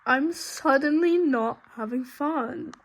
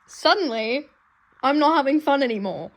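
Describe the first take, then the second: First: Slow, with "suddenly" drawn out and leaned on; dragged-out dismayed complaint; slow stressed. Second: Louder, faster distressed complaint; loud upset protest; upset outburst. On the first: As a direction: stretch out "suddenly" in mock despair. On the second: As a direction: blurt it out in dismay. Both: Real, not acted.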